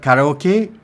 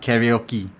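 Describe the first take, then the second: First: The word is said with Japanese-style vowels. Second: The word is said with English-style vowels. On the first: The speaker calls it right. "Like in the Japanese word karaoke" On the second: The speaker calls it wrong. "not karaoke"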